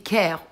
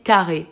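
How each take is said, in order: First: The name is said in a non-German way. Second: The name is said in the German way.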